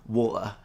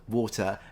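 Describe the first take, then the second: First: The middle T is replaced by a glottal stop. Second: The middle consonant is a clear T sound. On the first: "some Cockney speakers in, in East London, they will go for water" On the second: "instead of water"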